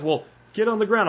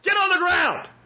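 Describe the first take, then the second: First: It is said meekly, without force. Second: It is shouted with threatening force.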